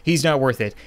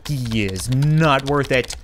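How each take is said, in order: First: Said in the usual way. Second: "is NOT" drawn out slowly; slow emphasis on NOT. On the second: Acted. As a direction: lean slowly and firmly on "not". Consoling line repeated with emphasis.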